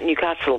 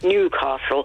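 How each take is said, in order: First: The name is said with a flatter tone. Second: The name is said in the usual way. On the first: "a slightly flatter tone to say something like Newcastle" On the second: "rather than Newcastle"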